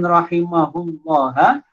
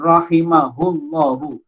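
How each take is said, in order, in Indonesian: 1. Kata ini berakhir dengan vokal a. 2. Kata ini berakhir dengan vokal u. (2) "dibaca dengan rahimahullahu"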